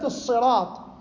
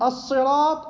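First: It begins with an emphatic, heavy s sound. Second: It begins with a plain, light s sound. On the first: "يجوز لك أن تقرأها بالصاد" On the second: "سين تحط"

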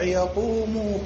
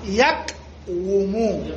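First: The w sound merges into a long u vowel. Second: A separate w sound follows the q. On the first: This is the everyday form of the word. "المضارع يقوم" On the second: This is the word's original underlying form. "قبل الاعلان"

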